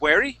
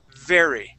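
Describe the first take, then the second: First: The word begins with a W sound. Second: The word begins with a V sound. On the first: The speaker calls it wrong. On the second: The speaker calls it right.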